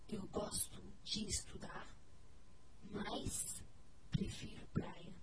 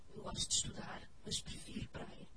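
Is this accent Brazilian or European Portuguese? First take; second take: Brazilian; European. First: It is spoken with a Brazilian Portuguese accent. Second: It is spoken with a European Portuguese accent. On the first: "Por isso os brasileiros dizem" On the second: "E os portugueses dizem"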